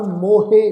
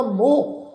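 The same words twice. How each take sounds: First: ਮੋਹੇ in two syllables, "mo-hey"; ਮੋਹੇ with final vowel. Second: ਮੋਹ as one long "moh" syllable; ਮੋਹ ending on a long o; ਮੋਹ without final vowel. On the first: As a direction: sound the "he" at the end of ਮੋਹੇ. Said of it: "ਇਸ ਢੰਗ ਨਾਲ ਨਹੀਂ ਕਰਨਾ". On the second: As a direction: say ਮੋਹ as "mo", no "he" after it. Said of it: "ਸ਼ਬਦ ਦਾ ਉਚਾਰਨ ਬਣੇਗਾ ਮੋਹ". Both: Shown as a demonstration.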